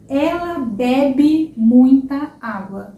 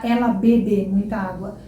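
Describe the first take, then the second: First: Ela bebe muita água, slow, bebe with open é; slow model sentence. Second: Ela bebe muita água with closed e in bebe, wrong. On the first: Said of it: "É ela bebe muita água". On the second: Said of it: "Você não fala". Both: Shown as a demonstration.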